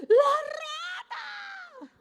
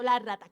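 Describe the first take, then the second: First: Chillido muy agudo y alargado; grito de espanto imitado. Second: Said in the usual way. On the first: Retold or imitated. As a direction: chilla de pánico, estirando las vocales. (grito agudo y largo, actuado) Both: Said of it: "Y todos gritando".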